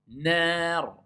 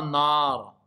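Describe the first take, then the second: First: NAR with a thin, front A, close to "naer"; light A. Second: NAR with a dark, back "aa"; heavy A error. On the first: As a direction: keep the long A of Nar light and forward. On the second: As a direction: thicken the long A of nar towards "naar" as in "far". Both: Shown as a demonstration. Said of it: "Et c'est pas nar".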